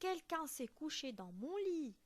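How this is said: It is said in a medium, middle-pitched voice.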